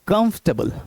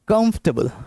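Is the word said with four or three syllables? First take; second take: three; three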